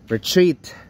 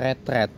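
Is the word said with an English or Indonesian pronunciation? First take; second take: English; Indonesian. First: The word is said with a strongly English pronunciation. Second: The word is said with a local Indonesian pronunciation. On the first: This is the very English way to say it. "kalau mau yang English banget ya retreat" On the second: This is how people here usually say it. "Orang di sini biasa bilangnya retreat"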